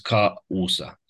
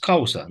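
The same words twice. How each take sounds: First: The a and u are said as separate syllables. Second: The a and u blend into one syllable. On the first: The speaker calls it wrong. "nu am zis causa, cu hiat" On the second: The speaker calls it right. "dar am zis causa"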